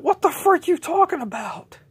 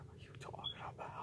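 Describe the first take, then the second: First: High, loud indignant yell; outraged shout. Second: Fast whispered echo; whispered repeat. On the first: J J yells at accusers, high and outraged. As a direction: yell back in disbelief. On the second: J J echoes his denial to accusers in a fast whisper. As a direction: hiss the same line under breath. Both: Acted.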